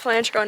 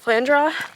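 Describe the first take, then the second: First: The name ends with an 'oh' sound. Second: The name ends with an 'uh' sound. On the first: The speaker calls it right. "I'm certain it's Flandreau" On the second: The speaker calls it wrong. "not Flandra"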